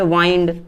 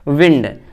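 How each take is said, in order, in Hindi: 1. स्वर 'eye' जैसा सुनाई देता है। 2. स्वर छोटे 'i' जैसा है। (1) "एक को पढ़ते हैं वाइंड" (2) "जो पहला वाला लिखा है इसको हम पढ़ते हैं विंड"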